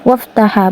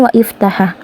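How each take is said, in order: First: The words run together with no separate vowel. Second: A separate vowel is sounded after 'wa'. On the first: The speaker calls it right. "maka dia dibaca waftaha" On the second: The speaker calls it wrong. "bukan wa iftaha"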